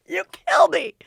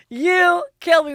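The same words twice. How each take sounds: First: High, laughing, hitting kill; imitating Matt laughing at a joke that isn't funny; mock laughing. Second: High, slower, louder, punching you; imitating Matt laughing harder at nothing; mock laughing. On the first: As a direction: cackle it like it's the funniest thing ever. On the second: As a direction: drag it out through the laugh. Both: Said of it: "he laughs really hard at things".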